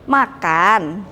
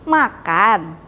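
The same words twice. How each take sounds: Both takes have the same delivery.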